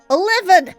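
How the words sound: The word is said in a Scottish accent. This is how the trapped people say it. "that's how you say it in, in Scotland"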